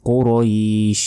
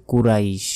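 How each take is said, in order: First: কুরাইশ said "qo-roeesh", heavy q, long ee; full-mouthed qo, drawn-out end on কুরাইশ; correct pronunciation. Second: কুরাইশ said "ku-raish", light k, short vowels; quick everyday "kuraish" for কুরাইশ; wrong pronunciation. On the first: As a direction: hold the ee before sh in কুরাইশ. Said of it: "বলতে হবে". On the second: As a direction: say কুরাইশ unstretched with a thin ku. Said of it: "এটা ভুল". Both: Shown as a demonstration.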